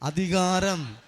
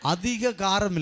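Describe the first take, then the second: First: The word is said as one smooth unit. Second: The word is broken into two separate parts. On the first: Authority. The speaker calls it right. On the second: Too much spice. The speaker calls it wrong.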